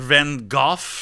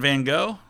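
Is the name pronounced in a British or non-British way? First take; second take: British; non-British. First: The name is said in the British way. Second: The name is said in a non-British way.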